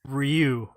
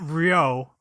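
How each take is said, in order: First: The syllable ends in an 'oo' vowel. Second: The syllable ends in an 'oh' vowel. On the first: The speaker calls it right. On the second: The speaker calls it wrong. "Not Ryo"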